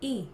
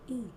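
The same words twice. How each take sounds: First: The glottal onset has effort level three. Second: The glottal onset has effort level one.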